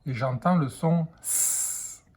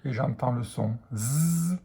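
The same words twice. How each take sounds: First: "S" said as a hissing s; teacher models the "S" hiss; S sound. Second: "Z" said as a buzzing z; teacher models the "Z" buzz; Z sound. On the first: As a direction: hiss the "S" slowly for the class. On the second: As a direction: buzz the "Z" to contrast with s. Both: Shown as a demonstration. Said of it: "je vois la lettre S".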